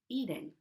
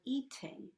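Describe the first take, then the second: First: The middle consonant is a quick D-like tap. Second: The middle consonant is a full, crisp T. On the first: "my T sounds like a quick D" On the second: "pronounced as a regular T sound"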